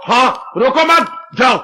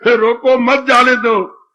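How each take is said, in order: First: "रोको मत" held together, pause, then "जाओ"; group मत with रोको, break, then a separate जाओ; pause after मत. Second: Drawn-out "रोको", then "मत जाने दो" as one phrase; pause after रोको. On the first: Father twists the daughter's message to send him off, pause after मत. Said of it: "बाप अर्थ लगा रहा है". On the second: Daughter pleads to have him stopped, pause after रोको. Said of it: "वो बेचारी पेट रही है". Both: Acted.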